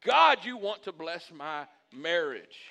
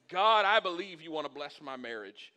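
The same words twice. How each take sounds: First: Slow, loud, emphatic declaration; with gusto. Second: Said in the usual way. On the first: Shown as a demonstration. Pastor modelling a prayer for his marriage, with gusto. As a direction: belt out "God", then stretch each word with conviction. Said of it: "you say it with gusto". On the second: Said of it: "and you say it".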